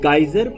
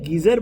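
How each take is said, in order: First: The first syllable sounds like 'guy'. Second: The first syllable sounds like 'gee'. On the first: This is how it is said in America. "America में वहाँ इसे गाइजर pronounce करते हैं" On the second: This is how it is said in India. "हम India में गीजर बोलते हैं"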